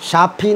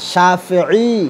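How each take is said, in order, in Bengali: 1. নামটি হঠাৎ একটি হ্রস্ব স্বরে শেষ হয়। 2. নামটি শেষে একটি অতিরিক্ত দীর্ঘ স্বর নিয়ে শেষ হয়। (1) "শাফি না" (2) "আমি কেমনে বলি সেটা মন দিয়ে শুনেন"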